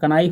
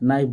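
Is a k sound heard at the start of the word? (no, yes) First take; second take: yes; no. First: The word begins with a sounded k. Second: The word begins with an n sound. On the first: The speaker calls it wrong. "कनाइफ नहीं बोलना है" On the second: The speaker calls it right. "के silent है, इसलिए नाइफ बोलना है"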